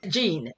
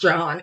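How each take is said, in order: First: The name is said with a 'zh' sound and long ee. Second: The name is said with a 'j' sound and short o. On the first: The speaker calls it wrong. "just seeing that word, it makes me go to Jean" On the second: The speaker calls it right. "it is John. It's not Jean"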